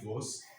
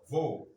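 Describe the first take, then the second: First: The word ends with an audible S sound. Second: The word ends in a vowel, with no S sound. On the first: The speaker calls it wrong. "You can't say vos" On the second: The speaker calls it right. "You don't pronounce the S"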